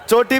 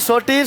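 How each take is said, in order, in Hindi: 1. शब्द 'ch' ध्वनि से शुरू होता है। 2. शब्द 's' ध्वनि से शुरू होता है।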